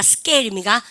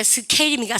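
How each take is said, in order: First: "스케일입니까" with k hardened to ㄲ; tense k. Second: "스케일입니까" with a puff of air on the k; aspirated k. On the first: Teacher offers students the right option, tense k in "스케일입니까". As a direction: say "스케일입니까" as 스께일, no puff after the s. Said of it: "쓰 다음에 프트크 발음은 뿌트크". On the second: Teacher offers students the wrong option, aspirated k in "스케일입니까". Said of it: "발음할 때". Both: Shown as a demonstration.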